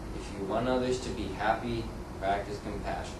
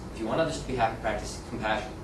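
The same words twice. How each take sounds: First: The sentence is read slowly. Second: The sentence is read quickly. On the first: The speaker calls it right. "tempted to either slow down" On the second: The speaker calls it wrong. "That's just a little too fast"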